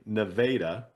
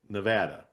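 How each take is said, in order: First: It is said the Missouri-town way. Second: It is said the state way. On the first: It names the town in Missouri. "I have always called the city of Missouri Nevada" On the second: It names the state. "but I call it Las Vegas, Nevada"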